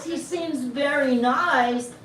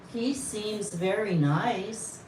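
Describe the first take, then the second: First: Higher, louder, drawn-out disbelief; mock-aghast slow repetition; incredulous echo. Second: Said in the usual way. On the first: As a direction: throw the words back as if scandalised. She echoes the answer back incredulously.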